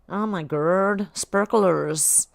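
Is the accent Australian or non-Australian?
non-Australian. It is spoken without an Australian accent. "Is that better?"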